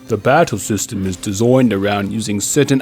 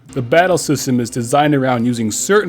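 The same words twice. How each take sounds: First: It is said in a put-on British accent. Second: It is said in the speaker's normal accent.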